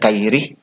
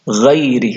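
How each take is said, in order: First: It starts with a plain k sound. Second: It starts with a throaty gh sound. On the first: The speaker calls it wrong. "bukan kairi" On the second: The speaker calls it right. "ghairi bukan kairi"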